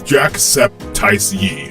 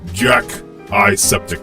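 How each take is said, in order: First: The name is said ending with 'ice'. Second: The name is said ending with 'septic'. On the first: The speaker calls it right. "Now we got it right" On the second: The speaker calls it wrong. "That's not correct"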